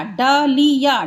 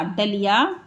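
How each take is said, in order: First: डलिया said slowly, each syllable clear; slow teacher blend; slow careful blend. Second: Said in the usual way. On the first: Shown as a demonstration. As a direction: draw out डलिया gently. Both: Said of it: "ये हो गया डलिया".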